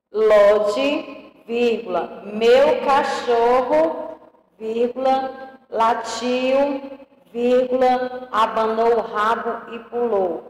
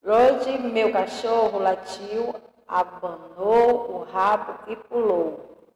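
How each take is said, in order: First: "Lodi, vírgula, meu cachorro" lido devagar, pausando em cada "vírgula". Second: Said in the usual way. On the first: Shown as a demonstration. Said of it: "eu vou até repetir novamente aqui, pra ficar bem claro". (lendo pausado, vírgula por vírgula) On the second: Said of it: "eu vou até repetir novamente aqui".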